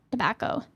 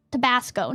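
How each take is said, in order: First: "tobacco" with no S before the final "co"; misread word tobacco. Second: "Tabasco" with an S sound before the final "co"; corrected word Tabasco. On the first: Streamer citing their slip, "tobacco" without the S. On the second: Streamer fixing a misread word, "Tabasco" with its S. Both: Real, not acted. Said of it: "not tobacco".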